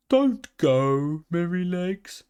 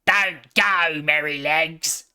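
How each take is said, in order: First: Pleading calf. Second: A grunt of a piglet voice, louder; blunt piglet plea. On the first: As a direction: gently beg him not to leave. Calf begs the pony to stay. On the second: Piglet grunting at his friend to stay. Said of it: "grunted Squeaker". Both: A narrator's reading.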